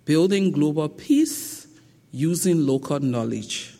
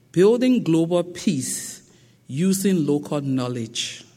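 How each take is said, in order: Both takes have the same delivery.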